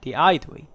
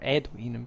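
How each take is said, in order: First: The name has a classical Latin pronunciation. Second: The name has an ecclesiastical Latin pronunciation.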